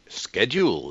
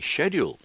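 First: The word is pronounced the American way. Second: The word is pronounced the British way. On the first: "schedule in America" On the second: "I was brought up to say schedule"

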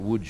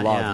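First: The name is said with its native Polish sounds. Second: The name is read as the English spelling suggests. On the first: The speaker calls it right. "but you pronounce it Łódź" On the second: The speaker calls it wrong. "It looks like Lodz. You'd say Lodz"

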